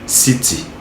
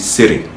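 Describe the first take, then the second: First: British accent with a clear t sound. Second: American accent with the t sounding like d. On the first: "le Britannique dit city" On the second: "l'Américain dit city. ... le T se change en D"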